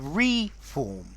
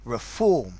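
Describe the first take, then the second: First: The stress is on the first syllable. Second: The stress is on the second syllable. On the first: To form again. "stress on the first letter" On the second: To make something better. "stress on the second letter"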